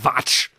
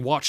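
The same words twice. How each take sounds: First: It is said with a German accent. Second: It is said with a plain English accent. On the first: "He's obviously German" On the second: "instead of saying watch"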